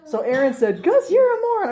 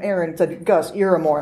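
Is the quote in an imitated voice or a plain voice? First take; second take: imitated; plain. First: The quote is said in an imitated voice. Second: The quote is said in a plain voice.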